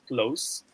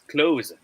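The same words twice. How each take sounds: First: It is said with the adjective pronunciation. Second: It is said with the verb pronunciation. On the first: "give us a smiley face if it is pronounced as close" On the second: "wink face if it is pronounced as close"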